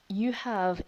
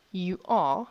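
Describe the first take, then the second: First: Said in the usual way. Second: "you are" said louder, both words hit hard; stressed correct phrase. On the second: Shown as a demonstration.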